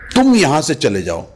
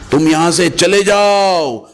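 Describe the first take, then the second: First: The stress falls on the word तुम. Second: The stress falls on the words चले जाओ. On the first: This particular person should leave, not the others. "अगर मैं तुम पे stress करता हूं" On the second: Go far away and never be seen again. "अगर चले जाओ पे स्ट्रेस कर देता हूं"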